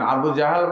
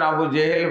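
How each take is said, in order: First: The second word is said with 'a' vowels: Jahal. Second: The second word is said with 'e' vowels: Jehel. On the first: The speaker calls it right. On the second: The speaker calls it wrong.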